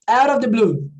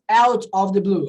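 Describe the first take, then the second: First: 'Out of' is run together into one relaxed sound. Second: Each word is pronounced separately and carefully. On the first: The speaker calls it right. "you kind of pronounce like that" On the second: The speaker calls it wrong. "I do not pronounce out of the blue"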